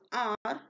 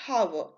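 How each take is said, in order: First: The word begins with a vowel sound. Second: The word begins with an h sound. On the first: The speaker calls it right. "H O U R is R" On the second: The speaker calls it wrong. "not hour"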